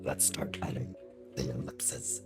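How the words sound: It is said in a put-on deep voice.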